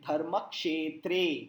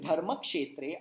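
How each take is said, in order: First: The final e vowel is drawn out long. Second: The final e vowel is short and clipped. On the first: The speaker calls it right. "आप कहेंगे" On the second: The speaker calls it wrong. "Instead of saying"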